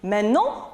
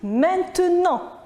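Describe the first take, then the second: First: The word is shortened with a syllable reduced. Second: The word is said in full with every syllable. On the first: "on l'entend souvent dans notre vie" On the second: "au lieu de dire maintenant"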